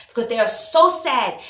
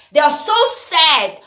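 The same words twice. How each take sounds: First: Said in the usual way. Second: Slow, sarcastic "They are so sad", stretching "so"; mocking "so sad". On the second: Mocking people who cry on camera, slow and sarcastic. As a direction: drag out "so sad" in mock pity. Mocking crying posters' sadness.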